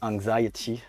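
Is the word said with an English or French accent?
English. The word is said with English pronunciation.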